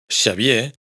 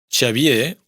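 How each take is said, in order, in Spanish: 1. Empieza con un sonido sh puro. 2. Empieza con sh mezclado levemente con ch. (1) "en vez de Xavier" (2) "con un poco"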